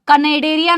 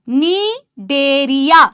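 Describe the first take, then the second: First: The word begins with a k sound. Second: The word begins with an n sound. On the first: The speaker calls it wrong. "कनेडेरिया नहीं है guys" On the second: The speaker calls it right.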